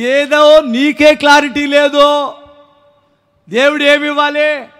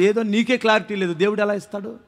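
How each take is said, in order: First: Slow, raised preacher's reproach; ringing, half-speed scolding; drawn-out rebuke. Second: Soft, low-key aside of reproach; muted scolding; quiet rebuke. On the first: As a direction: stretch out each word for the congregation. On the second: First, quiet take of rebuke. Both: Real, not acted.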